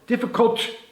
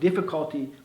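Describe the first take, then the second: First: The final syllable is dropped. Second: The final syllable is fully pronounced. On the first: The speaker calls it wrong. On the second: The speaker calls it right.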